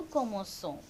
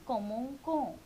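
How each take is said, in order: First: Commençons with an S sound; soft C in commençons. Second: Commençons mispronounced with a K sound; hard C in commençons. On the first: Teacher showing nous with cedilla, soft S in commençons. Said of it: "it will be so sound". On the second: Teacher showing the error without cedilla, K sound in commençons. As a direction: say "ko" for the ending of commençons. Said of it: "if you are putting c'est". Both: Shown as a demonstration.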